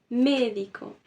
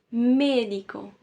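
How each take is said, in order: The two takes are said the same way.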